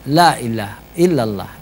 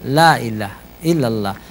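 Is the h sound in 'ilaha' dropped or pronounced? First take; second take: dropped; dropped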